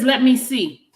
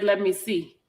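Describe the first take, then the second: First: Reading his text higher and louder, a bit hammed-up; mock eager. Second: Said in the usual way. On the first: Woman reading a man's text to viewers, higher and louder. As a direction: lift "Let me see" up high and push it louder. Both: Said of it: "Y'all hear, y'all hear that".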